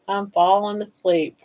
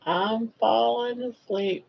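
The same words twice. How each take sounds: First: Said in the usual way. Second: Slow, drowsy nodding off. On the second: Pretend. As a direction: drag it out like nodding off.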